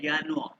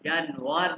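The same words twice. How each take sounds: First: यानुआ with the r dropped into an open "aa"; यानुआ starting with y, no final r; German pronunciation. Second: यानुआर with the final r sounded; wrong pronunciation. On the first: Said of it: "pronounce करते हैं यानुआ". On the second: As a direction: show the mistake: यानुआर ending in a clear r. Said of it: "यानुआर नहीं". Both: Shown as a demonstration.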